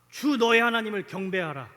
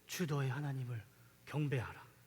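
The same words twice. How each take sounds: First: It is said in a loud, strong voice. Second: It is said in a faint, weak voice. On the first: The temptation is beaten with triumphant power. The speaker calls it wrong. "우렁찬 목소리로 ... 멋있게 이겼을 것 같아요" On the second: The temptation is beaten from utter exhaustion. The speaker calls it right. "아주 나지막한 목소리로, 다 죽어가는 목소리로"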